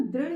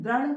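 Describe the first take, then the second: First: दृढ़ said as "dridh", with an i sound; correct ऋ sound. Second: दृढ़ wrongly said as "dradh"; mispronounced with "ra". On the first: Teacher giving pupils the correct word, दृढ़ as "dridh". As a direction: give दृढ़ a clear "ri" after the d. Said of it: "कहते हैं ना दृढ़ इच्छा शक्ति". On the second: Teacher quoting a common mistake, दृढ़ as "dradh". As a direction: put an a sound for the ri in दृढ़, "dradh". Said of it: "दृढ़ एक मिस्टेक है". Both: Shown as a demonstration.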